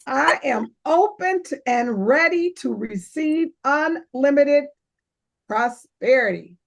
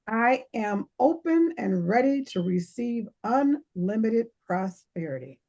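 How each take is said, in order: First: It is said with more enthusiasm and energy. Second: It is said flatly, without much enthusiasm.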